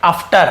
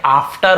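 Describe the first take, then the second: First: "after" as uhf-ter, first vowel short; mistaken short-a after. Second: "after" as aaf-ter, first vowel held; correct long-aa after. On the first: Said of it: "आपने यहाँ पे बोल देंगे after". ("after" को छोटे अ से, अफ्टर) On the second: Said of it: "लेकिन ये after होता है". ("after" को लंबे आ से, आफ्टर) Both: Shown as a demonstration.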